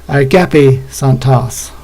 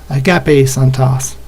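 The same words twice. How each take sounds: The two takes are said the same way.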